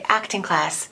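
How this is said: The stress falls on the word acting. The speaker calls it right. "we pronounce the first one. So we're supposed to say"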